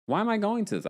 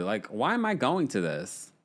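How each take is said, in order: First: High indignant mock question; high mock whine. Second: Said in the usual way.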